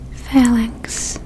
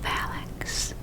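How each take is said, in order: First: The word is spoken in a full voice. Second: The word is spoken in a whisper. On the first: The speaker calls it wrong. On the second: The speaker calls it right.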